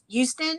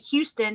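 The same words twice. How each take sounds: First: The word starts without any H sound. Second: The word starts with a pronounced H sound. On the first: "anything with an H you don't pronounce" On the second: "We don't say Houston"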